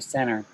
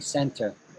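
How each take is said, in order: First: The T sound in the middle is dropped. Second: The T sound in the middle is pronounced. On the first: This is the American way of saying it. "We don't say center" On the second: This is the British way of saying it. "We say center. We pronounce the T"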